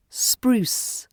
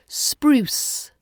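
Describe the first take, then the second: First: "spruce" whispered, unvoiced; whispered model word. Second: "Spruce" said higher with a clear spr; careful spr word. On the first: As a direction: breathe out "spruce". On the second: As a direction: model "Spruce". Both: Shown as a demonstration. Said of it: "let's try some words".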